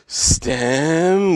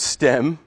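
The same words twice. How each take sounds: First: A long breathy H sound follows the S. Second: No H sound is heard at all. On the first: "stem with a long H, and that sounds kind of creepy" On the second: "So just pronounce stem"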